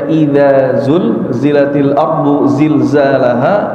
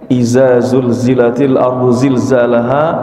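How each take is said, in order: First: The first word starts with a dh sound. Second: The z-like sounds are all z sounds. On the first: The speaker calls it right. "Harusnya dibaca" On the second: The speaker calls it wrong. "zai semua. Harusnya ada huruf dzal"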